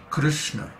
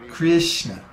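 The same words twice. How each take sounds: First: No 'ee' vowel follows the K R. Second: An 'ee' vowel follows the K R. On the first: The speaker calls it right. "It's Krishna" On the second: The speaker calls it wrong. "there's no I sound in Krishna"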